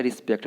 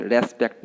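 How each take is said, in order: First: रिस्पेक्ट opening on "ri"; रिस्पेक्ट with a short i first; correct pronunciation. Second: रेस्पेक्ट opening on "res"; रेस्पेक्ट with an e first; wrong pronunciation. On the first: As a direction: say रिस्पेक्ट as "ri-SPEKT". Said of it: "ये होता है रिस्पेक्ट". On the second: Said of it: "रेस्पेक्ट नहीं होता है". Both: Shown as a demonstration.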